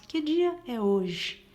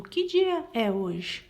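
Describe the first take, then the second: First: Slow, louder question tune; question intonation. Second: Slow, louder question with rising tune; question intonation. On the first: Teacher repeating the example question for students, slow and emphatic. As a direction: drag out the question so the tone shows. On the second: Teacher showing students a question's tone, slow and emphatic. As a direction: ask it clearly as a question, drawn out. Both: Shown as a demonstration. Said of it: "Percebam pela entonação da minha voz".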